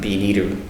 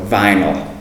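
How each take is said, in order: First: It begins with a B sound, Japanese style. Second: It begins with a V sound, English style. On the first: The speaker calls it wrong. "in katakana it's kind of lost in translation where we become biniru, which is quite different" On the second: The speaker calls it right. "the word vinyl itself with a V, not the B"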